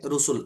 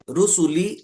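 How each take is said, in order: First: The word ends on a bare consonant. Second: The word ends with a short vowel sound. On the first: The reader stops at this word. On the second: The reading continues without stopping.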